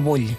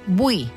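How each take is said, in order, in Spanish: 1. La palabra termina en un sonido l palatal. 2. La palabra termina en un deslizamiento parecido a la y. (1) "no bull" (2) "sempre diuen bui"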